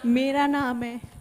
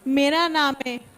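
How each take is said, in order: First: It is said softly and gently. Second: It is said more loudly.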